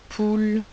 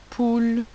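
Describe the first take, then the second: The two takes are said the same way.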